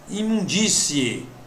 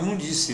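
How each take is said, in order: First: The word ends in a 'cie' diphthong. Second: The word ends in a plain 'ce' sound. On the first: The speaker calls it right. "O correto é imundície" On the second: The speaker calls it wrong. "Tem gente que fala imundície"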